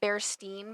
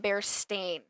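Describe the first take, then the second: First: The last syllable sounds like 'steen'. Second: The last syllable sounds like 'stain'. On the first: This is how most people say the name. The speaker calls it wrong. "I think most people pronounce it Bearstein Bears" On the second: This matches the name's actual spelling. The speaker calls it right. "It's always been the Bearstain, A I N, not E I N"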